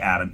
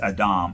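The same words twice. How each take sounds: First: It is said with the usual English pronunciation. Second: It is said with the original Hebrew pronunciation. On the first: "we say Adam" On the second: "it's Adam"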